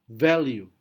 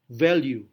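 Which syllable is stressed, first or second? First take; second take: first; first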